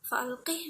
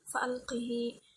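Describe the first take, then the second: First: The word ends on a bare h sound. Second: The final h is followed by a long 'ee'.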